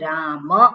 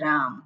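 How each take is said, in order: First: The word ends with a short vowel after m. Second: The word ends on m with no vowel. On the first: This is the proper Sanskrit way of saying it. The speaker calls it right. "સંસ્કૃતમાં બોલવું હોય તો રામ, રામ છે એટલે ત્યાં મ આખો છે" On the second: This is the everyday Gujarati way of saying it. The speaker calls it wrong. "આપણે ગુજરાતીમાં બોલીએ છીએ રામ"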